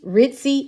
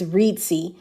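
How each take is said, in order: First: The first vowel is short, like 'rit'. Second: The first vowel is long, like 'reed'. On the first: The speaker calls it wrong. "I've been pronouncing it wrong" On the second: The speaker calls it right. "It's Reedsy"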